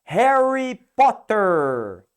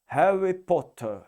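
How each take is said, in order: First: Slow, loud American accent, strong R in "Harry Potter"; hammed-up American accent. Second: Light British accent. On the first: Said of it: "Já o americano vai falar". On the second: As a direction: say "Harry Potter" the English way, R softened. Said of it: "E o inglês vai falar". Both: Shown as a demonstration.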